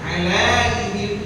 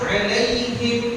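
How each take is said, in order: First: The diphthong is stretched with a long vowel. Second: The diphthong is said short and direct. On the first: The speaker calls it wrong. "Jangan nanti dibaca" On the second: The speaker calls it right. "Langsung 'alaihim"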